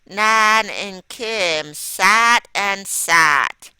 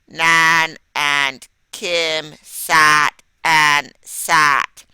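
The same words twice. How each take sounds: First: It is read with a lively, varied voice. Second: It is read in a flat, robotic monotone. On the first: The speaker calls it right. "I changed my voice a little when I read that" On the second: The speaker calls it wrong. "I did not read that like a robot"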